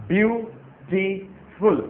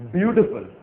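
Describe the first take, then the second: First: beautiful split into three slow syllables bee-yoo-ti-ful. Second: Said in the usual way. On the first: Shown as a demonstration. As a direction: stretch beautiful out, one beat per syllable. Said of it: "तीन आवाजें निकलती हैं". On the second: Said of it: "हमारे पास एक शब्द है".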